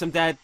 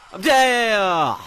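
First: Said in the usual way. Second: High, loud, drawn-out cry of defeat; loud dismayed gamer yell; exasperated yell. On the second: Real, not acted. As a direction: wail it out on a falling pitch. In-game death, repeated louder.

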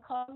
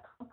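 First: "come" closing into a sounded nasal M; nasal M ending. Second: "come" cut short without a held nasal M; clipped wrong ending. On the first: Teacher correcting learners, nasal-ending "come". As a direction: let "come" finish in the nose. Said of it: "come nha". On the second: Teacher showing what not to do, short "come". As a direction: say "come" briefly, no hum at the end. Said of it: "Không phải là come". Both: Shown as a demonstration.

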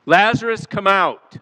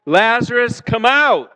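First: A raised call at the tomb, higher pitch; hollered call. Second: Louder and higher, calling out; hollering. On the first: Preacher hollers to the dead man in the tomb. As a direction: holler the name like calling into a cave. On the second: Preacher leads the congregation in a hollered call. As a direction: holler it together with the crowd. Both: Shown as a demonstration. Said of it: "I want you to holler that with me".

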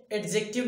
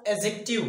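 First: "एडजेक्टिव" with a hard d before the j; d sounded. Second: "एडजेक्टिव" with no d, as a-jective; silent d. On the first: Teacher showing the rejected pronunciation, "एडजेक्टिव" with d sounded. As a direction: let the d be heard in "एडजेक्टिव". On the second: Teacher showing how it is read, "एडजेक्टिव" with silent d. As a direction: drop the d in "एडजेक्टिव". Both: Shown as a demonstration. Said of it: "यहाँ पे डी silent होता है".

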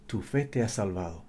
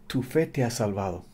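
The two takes are said the same way.

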